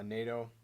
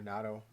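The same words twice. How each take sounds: First: "nato" said as NAY-toh; first pronunciation. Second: "nato" said as NAT-oh; alternative pronunciation. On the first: Guitarist trying a wood's name again, "nato" as NAY-toh. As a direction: say "nato" with a long AY. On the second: Guitarist weighing the other reading, "nato" as NAT-oh. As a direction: say "nato" with a short A, as in cat. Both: Shown as a demonstration. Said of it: "I'm just gonna call it nato".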